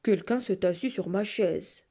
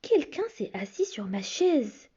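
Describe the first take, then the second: First: It is said in a big, deep bear voice. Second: It is said in a medium bear voice.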